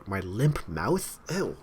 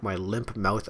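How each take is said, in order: First: Slow, questioning repeat, grossed out; real grossed-out reaction, slow and rising; disgusted disbelief. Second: Said in the usual way. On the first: Real, not acted. Breaks off reading, grossed out.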